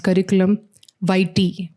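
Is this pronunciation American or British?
American. It is said with an American pronunciation. "in American English, we say it as"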